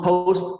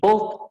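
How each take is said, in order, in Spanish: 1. La vocal pasa de o hacia u. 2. La vocal es una o simple y estable. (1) "pero es O U" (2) "no post ni post"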